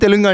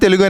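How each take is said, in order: First: It is said with a Tamil-style pronunciation. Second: It is said with a native Telugu pronunciation. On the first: This is how Tamil speakers say it. The speaker calls it wrong. "తమిళ వాళ్ళు తెలుగు అంటారు" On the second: This is how Telugu speakers say it. The speaker calls it right. "మన తెలుగు వాళ్ళు తెలుగు అనే అంటారు"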